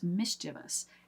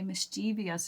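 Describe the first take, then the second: First: It uses the standard stress and ending vowels. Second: It uses the common variant stress and ending vowels. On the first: This is how it is supposed to be pronounced. The speaker calls it right. "is how it is actually supposed to be pronounced" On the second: This is how many Americans casually say it. The speaker calls it wrong. "So many of us will say mischievous instead"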